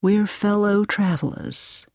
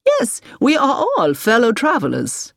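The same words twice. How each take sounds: First: Gentle. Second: High, emphatic, eager agreement; keen and rousing, pitch well up; enthusiastic. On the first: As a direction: break it to her gently, unhurried. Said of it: "said Peters gently". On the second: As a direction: declare it with real zest. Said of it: "with enthusiasm". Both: A narrator's reading.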